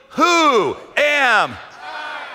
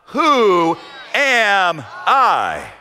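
First: Very slow, higher and pulled out; Moses' question dragged out slowly. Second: Said in the usual way. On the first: Acted. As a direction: stretch Who am I out word by word. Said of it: "Moses says to God slowly". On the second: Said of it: "Moses says to God".

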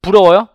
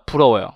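First: 부러워요 as a louder question, lifted at the end; questioning tune. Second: Said in the usual way. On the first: Shown as a demonstration. Teacher checks if the class is jealous, 부러워요 with a questioning lift. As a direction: ask 부러워요 like a teasing check on the listeners. Asks class, then answers herself.

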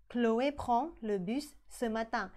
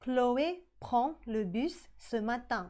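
First: Chloé prend le bus ce matin, slow with "prend" clear; slow repeat. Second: Chloé prend le bus ce matin, very slow and clear; slow model sentence. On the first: (พูดซ้ำช้าๆ) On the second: (อ่าน Chloé prend le bus ce matin ช้าๆ) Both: Shown as a demonstration. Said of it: "ออกเสียงเหมือนกันคือ prends".

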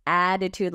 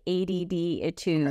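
First: Said in the usual way. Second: "A D D Etude" as three letters running into "-itude"; wordplay pronunciation. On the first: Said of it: "like A D D Etude". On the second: Shown as a demonstration. Host explaining the magazine's name, "A D D Etude" with letters sounded out. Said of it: "Attitude, like".

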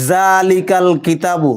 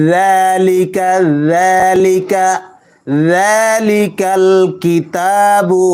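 First: জালিকাল with a hard j sound; mispronounced জালিকাল, j too hard; wrong hard j. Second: যালিকা with soft tongue-tip dhal; soft dh in যালিকাল, slow; যালিকাল, dhal between the teeth. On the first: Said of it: "তাহলে ভুল হবে". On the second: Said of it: "নরম করে উচ্চারণ করতে হবে". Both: Shown as a demonstration.

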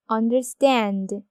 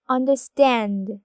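First: Understand said slowly, stand loudest and un second; understand, hit stand hardest; stress on stand. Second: Understand stretched very slowly, last syllable stand strongest; stress on stand. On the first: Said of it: "삼 음절을 가장 강하게 읽죠". (understand를 천천히, stand를 가장 강하게) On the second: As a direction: understand drawn out, punch stand at the end. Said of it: "이렇게 삼 음절로 나눌 수 있는데". (understand를 아주 천천히, 마지막 음절 stand를 강하게) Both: Shown as a demonstration.

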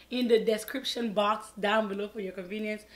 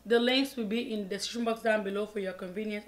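First: Said in the usual way. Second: Fast. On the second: Shown as a demonstration. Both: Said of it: "I always say that so fast".

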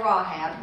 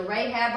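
First: Rahab said as RAH-hab; alternative pronunciation. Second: Rahab said as RAY-hab; first pronunciation. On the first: Teacher offering the other way to pronounce the name, Rahab as RAH-hab. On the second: Teacher offering one way to pronounce the name, Rahab as RAY-hab. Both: Shown as a demonstration. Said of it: "depending on how you pronounce it".

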